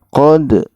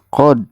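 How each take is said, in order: First: The final d bounces with a short echo. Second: The final d stops flat without an echo. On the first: The speaker calls it right. "harusnya qad" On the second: The speaker calls it wrong. "jangan sampai qad"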